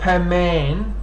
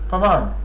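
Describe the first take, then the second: First: The vowels are long and drawn out. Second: The vowels are short and clipped. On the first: The speaker calls it wrong. "not Paman" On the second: The speaker calls it right. "You shorten it"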